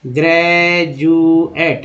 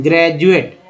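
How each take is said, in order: First: ग्रेजुएट drawn out slowly as ग्रे-जु-एट; syllable by syllable. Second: Said in the usual way. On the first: Shown as a demonstration. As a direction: break ग्रेजुएट into three long syllables. Same word split into syllables.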